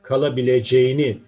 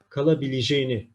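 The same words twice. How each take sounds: First: The middle vowel is a full open vowel. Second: The middle vowel is narrowed to a closed vowel. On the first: "Kalabileceğini şeklinde yazılır" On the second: "Harf daralması kuralı gereği kalabileceğini şeklinde telaffuz ederiz"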